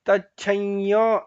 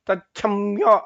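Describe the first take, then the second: First: A nasalized y glide precedes yo, lips open. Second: A full m with closed lips precedes yo. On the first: The speaker calls it right. "ಯಾ ಅನ್ನೋದು ಅನುನಾಸಿಕವಾಗಿ ಬರುತ್ತೆ" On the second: The speaker calls it wrong. "ಮಾ ಅಂತ ತಚ್ಛಮ್ಯೋ ಅಂತ ಹೇಳಬಾರ್ದು"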